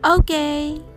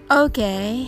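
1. 明るく、乗り気な口調で言います。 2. 気のない、感心していない口調で言います。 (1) "ポジティブな意味でバッチリですという気持ちを込めて" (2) "彼はまあまあよという意味になります"

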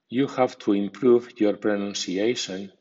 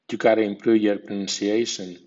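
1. Cada palabra se pronuncia completa y con cuidado. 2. Las palabras se reducen y se pronuncian unidas. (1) "primero en estilo formal" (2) "a continuación en versión informal o coloquial"

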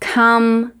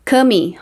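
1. A palavra termina com um som de m de lábios fechados. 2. Um som de vogal segue o m final. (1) "o E é mudo" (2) "não podemos falar come"

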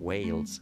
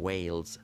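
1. این واکه یک صدای 'ay' کشیده و لغزان است. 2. این واکه یک صدای 'ay' کشیده و لغزان است.

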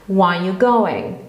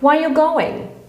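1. Słowo "are" jest pominięte i zlewa się z resztą. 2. Słowo "are" jest wyraźnie wymawiane. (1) "W tym momencie nam się zlewają te słowa, szczególnie nie słychać tego are" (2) "A więc Jas się pyta"

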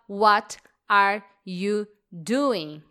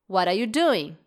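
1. A frase é dita em ritmo normal. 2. A frase é dita rapidamente, com palavras reduzidas. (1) "que é associado a What are you doing?" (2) "Falando um pouquinho mais rápido"

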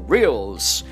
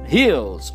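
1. É pronunciado com a pronúncia do inglês norte-americano. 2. É pronunciado com a pronúncia do português brasileiro.

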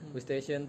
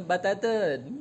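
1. Diucapkan dengan pelafalan bahasa Inggris standar yang biasa. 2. Diucapkan dengan pelafalan beraksen Thailand yang cepat dan terpotong. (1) "mereka nggak tahu" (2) "Bus station itu jadinya bataten"

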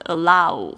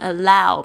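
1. 'ow' 元音没有完全滑动。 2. 'ow' 元音是完整、宽的滑音。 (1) "或者是allow、哦、这样子就不对了" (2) "那你要讲成allow"

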